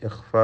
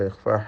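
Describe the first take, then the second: The two takes are said the same way.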